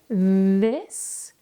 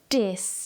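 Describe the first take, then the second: First: The word begins with a th sound. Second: The word begins with a d sound. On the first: "For the T H sounds, make sure your tongue is in between your teeth" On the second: "You see the difference in the tongue position?"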